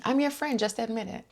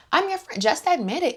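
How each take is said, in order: First: A hint of high, sweet manipulative friend; mock Heather. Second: Much higher, pushy sing-song coaxing; hammed-up Heather. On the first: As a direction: coax her softly, faking kindness. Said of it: "such manipulation". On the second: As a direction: overdo the fake friendship.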